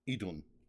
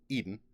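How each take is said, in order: First: The name is said with an English-style sound. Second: The name sounds like the English word Eden. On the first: "put a little little English on it" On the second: "the first one just sounded like Eden to me"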